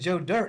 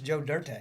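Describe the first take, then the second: First: The name is said in a plain American way. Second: The name is said with a fancy French-like ending. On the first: "instead of Joe Dirt" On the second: "I actually like the flair"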